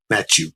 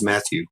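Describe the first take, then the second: First: Matthew said as "Mat-chew"; nickname pronunciation. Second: Said in the usual way. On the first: Shown as a demonstration. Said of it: "that's how we'd say his name". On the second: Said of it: "his name was Matthew".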